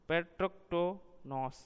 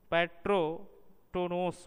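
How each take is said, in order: First: The stress falls on the syllable 'to'. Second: The stress falls on the syllable 'ro'. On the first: It means one who kills the father. "टो पर बलाघात होने के कारण यह संज्ञापद बन जाता है" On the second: It means killed by the father. "रो पर बलाघात होता और वह क्रियापद बन जाता है"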